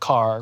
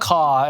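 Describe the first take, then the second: First: The final r sound is pronounced. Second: The final r sound is dropped.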